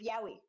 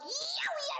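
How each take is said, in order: First: It is said plainly, as a neutral word. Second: It is cried out like a yelp of pain. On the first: It names a genre of stories about men loving men. "I've heard people saying that there is yowie" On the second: It is an exclamation of sudden pain. "not yowie like yowie. I've stubbed my toe"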